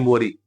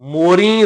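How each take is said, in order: First: The final vowel is plain, not nasalized. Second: The final vowel is nasalized. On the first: It means a hole. "ਮੰਮੇ ਨੂੰ ਹੋੜਾ ਤੇ ਰਾਰੇ ਨੂੰ ਬਿਹਾਰੀ ਮੋਰੀ" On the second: It means peacocks. "ਉੱਥੇ ਬਿੰਦੀ ਸਹਿਤ ਸਾਨੂੰ ਪੜ੍ਹਨਾ ਪਏਗਾ"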